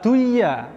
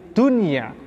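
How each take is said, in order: First: The n sound is merged away. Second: The n sound is pronounced clearly. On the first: The speaker calls it wrong. "bukan duya" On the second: The speaker calls it right. "tapi dunia"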